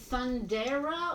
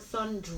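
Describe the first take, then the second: First: The name is said with three syllables. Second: The name is said with two syllables. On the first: The speaker calls it wrong. "I was probably just saying it wrong" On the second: The speaker calls it right. "it wouldn't have the A"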